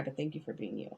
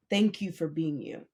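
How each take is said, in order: First: Soft and sincere. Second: Said in the usual way. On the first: Real, not acted. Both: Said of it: "I'm not trying to make you cry".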